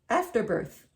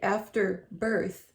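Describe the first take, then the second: First: The stress falls on the word after. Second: The stress falls on the word birth. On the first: It names the tissue expelled after childbirth. "He said after birth" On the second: Something happens once the baby is born. "He didn't say it that way"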